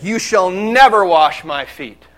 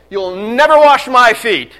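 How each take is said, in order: First: "never" drawn out and firm, slow; stress on never. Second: Loud, slow, adamant "never wash"; Peter's loud refusal. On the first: Acted. Peter refusing Jesus, firm stress on "never". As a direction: lean hard on "never". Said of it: "Peter said". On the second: Retold or imitated. Peter refusing Jesus, loud and indignant. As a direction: shout the refusal like an indignant disciple. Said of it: "So what does he say?".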